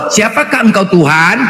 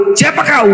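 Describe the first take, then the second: First: Said in the usual way. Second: Casual who are you. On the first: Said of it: "Kau kalau menjumpa orang lain". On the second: Shown as a demonstration. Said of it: "Seharusnya gitu".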